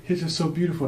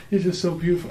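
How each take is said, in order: First: Much higher, tearful, overwhelmed; choked-up gush. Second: Much higher and louder, tearful; choked-up gush. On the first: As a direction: gush like you're about to cry. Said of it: "I'd be like". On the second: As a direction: say it again, overcome with emotion. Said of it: "And I look at her". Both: Retold or imitated.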